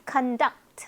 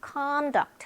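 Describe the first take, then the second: First: "conduct" with weak con, strong DUCT; stress on second syllable. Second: "conduct" with strong, high CON; stress on first syllable. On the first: Teacher explains the verb, "conduct" stressed on DUCT. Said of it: "뒤에 강세가 있습니다". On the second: Teacher explains the noun, "conduct" stressed on CON. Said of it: "앞에 강세가 있는 거". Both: Shown as a demonstration.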